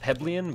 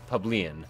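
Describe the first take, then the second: First: The word has its usual standard pronunciation. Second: The word has an altered, song-style pronunciation. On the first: It is the word's usual form. The speaker calls it right. "The real word, by the way, is plebeian" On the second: It copies how the word was sung. The speaker calls it wrong. "how they pronounced it in the song"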